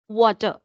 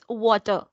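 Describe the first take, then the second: First: The R sound is pronounced softly. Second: The same.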